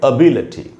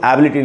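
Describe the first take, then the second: First: The first vowel is a short, weak schwa. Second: The first vowel is a full, clear vowel. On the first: The speaker calls it right. "आधा अ" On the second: The speaker calls it wrong. "इसको एबिलिटी नहीं पढ़ना चाहिए"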